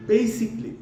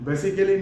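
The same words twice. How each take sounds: First: Basically as "BAY-sik-lee"; high "BAY", then quick "sik-lee" in basically; three-syllable basically, long "ay"; correct pronunciation. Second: Basically in four syllables, "be-si-ke-li"; wrong-way basically, "be-si-ke-li"; mispronunciation. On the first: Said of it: "উচ্চারণটা হবে". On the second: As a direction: spell out every syllable of basically, short first e. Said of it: "basically না". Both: Shown as a demonstration.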